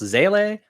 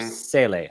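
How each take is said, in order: First: The word begins with a Z sound. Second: The word begins with an S sound.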